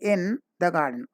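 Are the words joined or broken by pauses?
broken. Pauses break up the words of the phrase. The speaker calls it wrong. "don't say"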